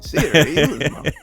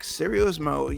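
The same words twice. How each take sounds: First: The intonation stays steady through the word. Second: The intonation shifts partway through the word. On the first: The speaker calls it right. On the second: The speaker calls it wrong.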